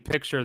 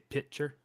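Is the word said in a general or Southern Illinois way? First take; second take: general; Southern Illinois. First: The word is said in a general American way. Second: The word is said in a Southern Illinois way. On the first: "instead of saying picture" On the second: "they say picture"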